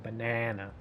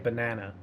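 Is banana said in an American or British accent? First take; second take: American; American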